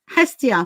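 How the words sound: The name is given an English pronunciation. "with the um, uh, English pronunciation"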